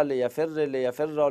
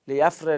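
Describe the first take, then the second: First: لیفر drawn out very slowly, with the ر held and doubled. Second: Said in the usual way. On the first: Shown as a demonstration. Teacher drilling students slowly on the doubled ر in لیفر. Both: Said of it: "چطوری میگید لیفر".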